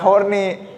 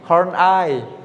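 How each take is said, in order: First: The last syllable sounds like 'ee'. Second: The last syllable sounds like 'eye'. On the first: The speaker calls it wrong. "Ini tadi disebut nggak horny" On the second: The speaker calls it right.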